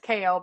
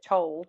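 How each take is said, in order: First: The name is said like 'kale', rhyming with pale. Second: The name is said like 'chol', rhyming with pole. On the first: This is the correct pronunciation. The speaker calls it right. "It's Kale" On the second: This is how the speaker used to say it. The speaker calls it wrong.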